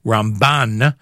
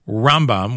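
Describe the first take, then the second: First: Ram-BAN, second syllable stressed and drawn out. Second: RAM-bam, first syllable stressed, second light. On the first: Host avoiding confusion of two rabbis, BAN stressed in Ramban. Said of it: "with the emphasis on the second part of the word". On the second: Host showing listeners which rabbi is meant, RAM stressed in Rambam. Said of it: "with the emphasis on the first part of the word". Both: Shown as a demonstration.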